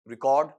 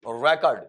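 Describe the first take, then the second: First: The stress is on the second syllable. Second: The stress is on the first syllable.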